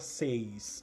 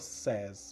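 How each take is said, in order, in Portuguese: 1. A vogal soa como a vogal de 'say'. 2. A vogal soa como a vogal de 'set'. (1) "A gente não fala says" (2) "a gente fala says"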